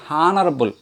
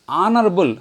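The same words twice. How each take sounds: First: The word starts with an h sound. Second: The word starts with a vowel sound. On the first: The speaker calls it wrong. "not honorable" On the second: The speaker calls it right. "at the starting vowel sound"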